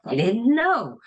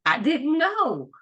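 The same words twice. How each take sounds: First: Mildly imitating astonished coworkers, pitch raised; mock amazement, a touch high; shocked and amazed. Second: Higher, drawn-out imitation of shocked colleagues; mock amazed onlooker, slow and high; astonished coworkers. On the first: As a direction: play their surprise lightly, a rise then a fall on "know". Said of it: "they're all so shocked and amazed". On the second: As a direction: stretch it out like a coworker taken by surprise. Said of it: "they're laughing and they're like".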